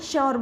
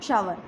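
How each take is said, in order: First: The word is said with a short 'yoor' vowel. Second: The word is said with an 'ower' vowel. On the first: The speaker calls it wrong. "Mostly बच्चे श्योर बोलते हैं ... वो गलत है" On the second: The speaker calls it right. "इसको बोलेंगे हम शावर"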